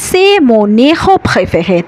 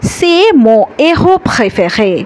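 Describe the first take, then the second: First: A consonant sound links the words together. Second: The words stay separate with no linking consonant. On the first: The speaker calls it wrong. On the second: The speaker calls it right.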